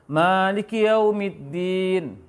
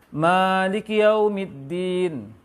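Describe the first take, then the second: The two takes are said the same way.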